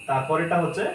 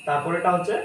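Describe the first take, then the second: Both takes have the same delivery.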